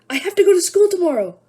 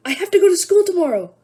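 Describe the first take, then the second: First: It is said in a panicked voice. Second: The same.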